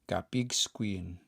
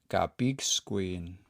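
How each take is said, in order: Both takes have the same delivery.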